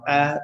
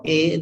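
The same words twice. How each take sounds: First: "a" said as open AH; wrong vowel. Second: "a" said as long AY; wrong vowel. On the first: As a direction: say "a" as "ah", as in father. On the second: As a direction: say "a" like the letter A, "ay". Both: Shown as a demonstration. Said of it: "not a, or this is a".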